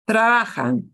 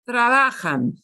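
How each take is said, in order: Both takes have the same delivery.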